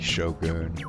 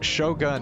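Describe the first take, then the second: First: The vowel after g sounds like oo. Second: The vowel after g sounds like uh. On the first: It is treated as a Japanese word. "if you're trying to use the Japanese pronunciation, it would be Shogun" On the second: It is treated as an English word. "Shogun is an English word, so I figured I would just pronounce it like, like in English"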